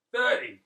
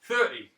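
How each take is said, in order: First: Much higher, louder, disbelieving; high incredulous second take; higher surprised repeat. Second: Mock disbelief, a touch louder; incredulous barber voice; surprised repeat. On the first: Retold or imitated. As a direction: throw it up in astonishment. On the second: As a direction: echo the number in shock. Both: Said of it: "Like that".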